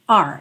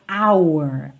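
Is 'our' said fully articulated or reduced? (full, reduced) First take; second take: reduced; full. First: The word is reduced to sound like the letter r. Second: The word is fully articulated with wide mouth movement. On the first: "numa fala mais rápida, soa meio r" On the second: "quando a gente vai falar essa palavra com muita articulação, a gente acaba mexendo muito a boca"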